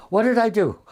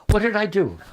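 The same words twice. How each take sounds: First: Higher and louder, pleading; second ask, more upset; more distressed girl. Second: Higher, worried plea; rising worry, first ask; distressed girl. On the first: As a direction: push the worry further, almost panicked. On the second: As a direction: ask it like the snubbed girl, anxious. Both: Retold or imitated. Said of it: "a girl came in from lunch crying".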